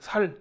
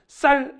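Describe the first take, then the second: First: The first consonant is a plain 's' sound. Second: The first consonant is a tense 'ss' sound. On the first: "살 이렇게 얘기합니다" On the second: "쌀 해보세요"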